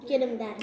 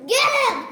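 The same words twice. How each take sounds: First: Said in the usual way. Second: Loud excited yell at the fly; shouting. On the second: Real, not acted. Kid yelling at the fly.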